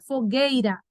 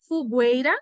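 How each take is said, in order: First: The u after the g is silent. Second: The u after the g is clearly sounded. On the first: The speaker calls it right. "é fogueira" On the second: The speaker calls it wrong. "Fogueira não teria, mas não é assim que a gente pronuncia"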